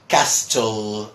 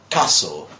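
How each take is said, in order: First: The t in the middle is pronounced. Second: The t in the middle is silent. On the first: The speaker calls it wrong. "trying to pronounce every single letter" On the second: The speaker calls it right. "just castle"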